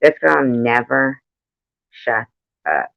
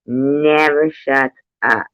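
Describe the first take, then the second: First: Said in the usual way. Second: "Never" stressed, whole phrase very slow; slow emphatic repeat. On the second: Real, not acted. Complaining to friends about the neighbor, slow and stressed. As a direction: drag it out, leaning on "Never".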